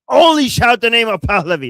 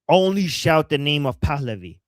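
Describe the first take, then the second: First: It is said loudly, with high energy. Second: It is said flatly, with little energy.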